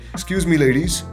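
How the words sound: It sounds eager and seeking a reaction. The speaker wants approval from the listener. The speaker calls it wrong. "a seeking rapport tonality is when you're seeking some validation"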